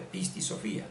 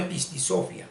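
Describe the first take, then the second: First: "Pisti Sofía" stressed on FÍ, pisti soFÍa; right stress. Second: "Pisti Sofía" misstressed as pisti SÓfia; wrong stress. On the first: Teacher giving the correct name, stress on the í. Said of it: "sino de Pisti Sofía". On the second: Teacher ruling out the wrong name, misplaced stress. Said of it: "no de Pisti Sofía". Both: Shown as a demonstration.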